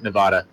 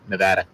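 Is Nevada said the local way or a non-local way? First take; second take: non-local; local. First: Nevada is said with a non-local pronunciation. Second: Nevada is said with the local pronunciation. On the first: The speaker calls it wrong. "not Nevada" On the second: The speaker calls it right. "we're all Nevada locals"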